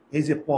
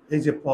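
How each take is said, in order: Both takes have the same delivery.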